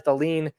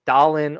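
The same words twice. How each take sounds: First: "Dahlin" said da-LEEN; alternative pronunciation. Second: "Dahlin" said DAH-lin; alternative pronunciation. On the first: Podcaster trying one of our guys' names, "Dahlin" as da-LEEN. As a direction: stress the second syllable of "Dahlin", with a long ee. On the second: Podcaster offering the other version, "Dahlin" as DAH-lin. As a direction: stress the first syllable of "Dahlin", short i after it. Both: Shown as a demonstration. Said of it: "however you wanna pronounce his name".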